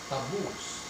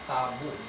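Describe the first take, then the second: First: The stress is on the second syllable. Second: The stress is on the first syllable. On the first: The speaker calls it right. "So the accent would be on the second syllable" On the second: The speaker calls it wrong. "Not taboo"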